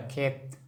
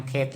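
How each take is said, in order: First: Said in the usual way. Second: खेत stretched as खे-त. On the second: Shown as a demonstration. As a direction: draw out the ए in खेत, then add त. Teacher sounds out the word.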